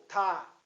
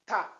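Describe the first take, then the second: First: "tá" with a long, drawn-out vowel; lengthened tá. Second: "Tá" with a brief, cut-short vowel. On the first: Teacher demonstrates the letter's name, lengthened "tá". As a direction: stretch the "a" in "tá". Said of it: "Alongamos um pouco". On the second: Teacher demonstrates a short syllable, brief "Tá". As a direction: keep the "a" of "Tá" very short. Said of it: "é uma sílaba breve". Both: Shown as a demonstration.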